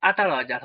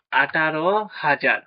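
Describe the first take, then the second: First: Said in the usual way. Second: Slow, deliberate. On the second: Shown as a demonstration. Teacher dictating the answer to pupils, slow and deliberate. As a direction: spell out আঠারো হাজার slowly, word by word.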